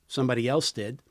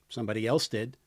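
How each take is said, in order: Both takes have the same delivery.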